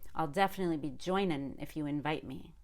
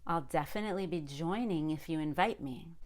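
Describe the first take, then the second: First: Joining ends with a plain n sound. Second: Joining ends with a full ng sound. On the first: The speaker calls it wrong. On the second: The speaker calls it right.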